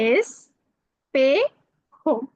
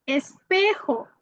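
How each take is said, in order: First: "espejo" drawn out as es... pe... jo; syllable by syllable. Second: Said in the usual way. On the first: Shown as a demonstration. Teacher models a Spanish word for learners, syllable by syllable. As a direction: say "espejo" very slowly with a pause after each syllable.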